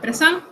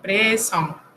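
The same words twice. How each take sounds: First: The last vowel is plain and oral. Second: The last vowel is nasal. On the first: The speaker calls it wrong. "No es presión" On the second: The speaker calls it right. "sino presión"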